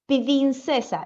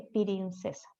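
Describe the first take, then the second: First: "pirincesa" with an extra i between p and r; mispronunciation. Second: "pirincesa", extra vowel, trailing off quietly; mild child's "pirincesa" said softly; child's version. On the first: Imitating a child saying princesa wrong. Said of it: "si dice". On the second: Imitating the child's answer to the teacher. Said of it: "el niño dice". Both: Retold or imitated.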